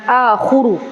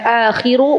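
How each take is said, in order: First: The vowel after kh is u. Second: The vowel after kh is i. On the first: "bukan akhuru" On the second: "bukan akhiru"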